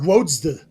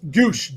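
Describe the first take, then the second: First: The name begins with a W sound. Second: The name begins with a G sound. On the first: This is how people said it as kids. The speaker calls it wrong. "We called him Doug Wodsde" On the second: This is how the name is actually pronounced. The speaker calls it right. "but it's Goosh"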